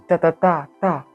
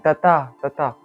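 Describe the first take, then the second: First: The third beat is the loudest. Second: The second beat is the loudest. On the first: "le troisième est tapé fort" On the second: "le deuxième est tapé fort"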